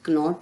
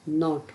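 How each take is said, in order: First: A k sound is heard before the n. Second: The word starts directly with the n sound. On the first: The speaker calls it wrong. "नॉट नहीं होगा" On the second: The speaker calls it right. "नॉट होगा"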